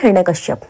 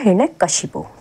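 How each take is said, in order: First: The name ends with the sounds 'kashyap'. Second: The name ends with the sounds 'kashipu'. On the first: This is the common everyday form. The speaker calls it wrong. "अभी हम लोग क्या बोलते हैं? ... वो incorrect है" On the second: This is the standard written form. The speaker calls it right. "करेक्ट answer हो जाएगा"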